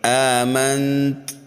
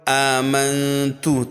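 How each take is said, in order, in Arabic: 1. تقف الكلمة على التاء الأخيرة دون حركة. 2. بعد التاء الأخيرة تأتي ضمة قصيرة. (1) "اگر ہم اس تا کو ساکن کرنا چاہیں تو پھر اس طرح سے پڑھیں گے" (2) "آمنت تا کے اوپر پیش ہے"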